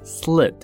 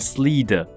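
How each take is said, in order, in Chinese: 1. 元音非常短，一下就截住。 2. 元音拖得很长。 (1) "它是很短很短的小小短短的半拍" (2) "i 的声音不小心发太长了，就会变slid"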